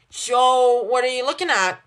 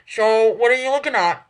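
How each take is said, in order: First: Said in the usual way. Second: Talking through a mouthful of toast; words round a bite of food; mouth full. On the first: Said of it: "her mouth is full". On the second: A narrator's reading. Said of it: "her mouth stuffed with toast".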